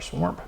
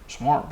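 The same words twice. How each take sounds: First: It is said with an r sound, grandmother-style. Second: It is said without an r sound.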